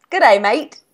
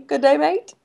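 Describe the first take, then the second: First: A quick mock Australian "Good day, mate". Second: Higher mock Australian "Good day, mate" as a question. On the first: Friend teasing on the phone, mock Australian accent. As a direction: toss off a cheesy Australian greeting. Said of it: "try your accent". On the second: Friend urging her to try the Australian accent. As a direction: prompt her with a playful Australian line. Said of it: "try your accent, though?".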